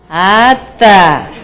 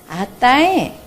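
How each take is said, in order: First: It sounds annoyed, dropping at the end. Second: It sounds happy, rising at the end.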